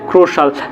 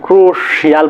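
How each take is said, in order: First: The ending is a single short syllable: shal. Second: The ending has an extra 'ee' sound: shial. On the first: The speaker calls it right. "আসলে সেটার উচ্চারণ কি হবে ক্রুশাল" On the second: The speaker calls it wrong. "কি বলতে পারি ক্রুশিয়াল বলে"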